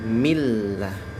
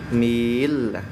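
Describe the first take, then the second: First: The vowel before the doubled l is short and clipped. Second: The vowel before the doubled l is drawn out. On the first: The speaker calls it right. "Dia dibaca langsung millah" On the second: The speaker calls it wrong. "millah, jangan"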